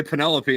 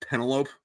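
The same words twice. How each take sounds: First: Penelope stressed on the second syllable; Penelope ending in a clear "-pee"; correct pronunciation. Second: Penelope rhyming with "envelope"; Penelope with a silent final e; read-as-spelled mispronunciation. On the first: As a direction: say Penelope as "puh-NEL-uh-pee". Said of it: "I heard someone else say Penelope". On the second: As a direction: say Penelope as three syllables, ending "-lope". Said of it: "that's how it's pronounced if you've never heard". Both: Shown as a demonstration.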